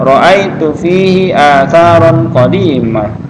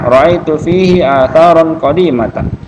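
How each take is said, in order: First: The last word ends in a plain -ah. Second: The last word ends in a full -atan.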